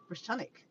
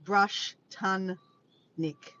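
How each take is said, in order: First: "Brush Tunic" joined in one smooth word, stress on TUNIC; pronunciation demo, joined up; blended together. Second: "Brush Tun Nick" split into slow separate parts; careful sounding-out demo; syllable by syllable. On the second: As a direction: break "Brush Tun Nick" apart, sounding out each piece. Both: Shown as a demonstration. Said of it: "it's pronounced".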